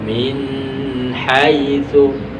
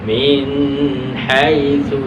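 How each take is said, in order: The two takes are said the same way.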